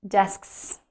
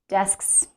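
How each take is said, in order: The two takes are said the same way.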